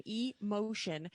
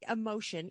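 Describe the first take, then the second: First: E-Motion slowly, E set apart from Motion; split-word pronunciation. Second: Said in the usual way. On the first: Shown as a demonstration. Clarifying the car's name for listeners, E-Motion split in two. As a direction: draw out E-Motion as two parts.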